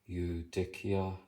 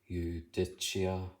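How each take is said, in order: First: It uses the classical Latin pronunciation. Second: It uses the church Latin pronunciation.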